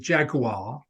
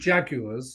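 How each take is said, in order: First: It is said with an American pronunciation. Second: It is said with a British pronunciation.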